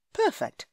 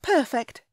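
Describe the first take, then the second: First: Much higher, bright exclamation; pleased. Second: Higher, louder delighted reply; pleased. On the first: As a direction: say it with sudden delight. Hero's thought, pitched up. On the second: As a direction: say it with glee. Heroine answers eagerly. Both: A narrator's reading.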